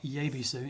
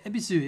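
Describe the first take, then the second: First: The word begins with a Y sound. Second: The word begins directly with a vowel sound. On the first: The speaker calls it wrong. "It's not Yebisu. ... you don't pronounce the Y" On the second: The speaker calls it right. "Yeah, Ebisu, yes"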